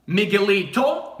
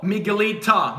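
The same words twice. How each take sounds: First: "Miguelito" with a clear final -o; masculine -o ending. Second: "Miguelita" with a clear final -a; feminine -a ending. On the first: Teacher comparing with Spanish for boys, "Miguelito" ending on o. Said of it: "It's for boys". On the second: Teacher comparing with Spanish for girls, "Miguelita" ending on a. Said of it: "Miguelita for girls". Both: Shown as a demonstration.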